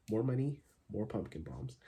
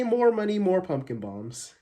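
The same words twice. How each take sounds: First: Softer, offhand repeat; understated mock proverb. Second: High, loud delivery easing down; mock proverb. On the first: Vlogger repeating his joke saying, understated. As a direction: drop it quietly as a deadpan aside. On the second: Vlogger quoting a made-up saying, mock-proverbial. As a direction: proclaim it like a famous saying. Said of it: "like they say".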